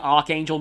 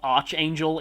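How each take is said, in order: First: The first syllable sounds like 'ark'. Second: The first syllable sounds like 'arch'. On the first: The speaker calls it right. "Pretty sure it's actually Archangel" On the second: The speaker calls it wrong. "even though Arch sounds a bit more natural to me"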